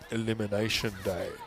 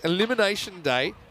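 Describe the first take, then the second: First: It is said in a low, deep voice. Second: It is said in an ordinary speaking voice.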